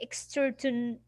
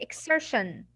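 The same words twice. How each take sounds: First: The middle consonant is a t sound. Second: The middle consonant is a sh sound. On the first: The speaker calls it wrong. "You will not say exertion" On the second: The speaker calls it right. "you'll say exertion. ... you will pronounce it as sh"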